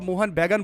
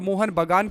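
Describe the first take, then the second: First: The second word begins with an 'ai' vowel. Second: The second word begins with an 'aa' vowel. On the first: The speaker calls it wrong. "Mohan बैगन बोल रहा है" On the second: The speaker calls it right. "Mohan बागान की जगह"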